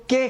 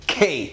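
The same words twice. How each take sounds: First: "کے" with an unaspirated k; wrong pronunciation. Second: "کھے" with an aspirated k, breath from the chest; puff of air. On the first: Teacher quoting the usual mistake for K, wrong pronunciation. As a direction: say "کے" with no puff of air. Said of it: "کے نہیں ہے یہ". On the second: Teacher modelling the proper K, aspirated pronunciation. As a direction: push a gush of air out on "کھے". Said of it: "ایک puff of air کہتے ہیں". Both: Shown as a demonstration.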